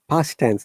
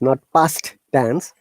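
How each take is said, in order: First: The two t sounds merge into one. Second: Both t sounds are pronounced separately. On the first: The speaker calls it right. "You have to bring together and one T should be removed" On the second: The speaker calls it wrong.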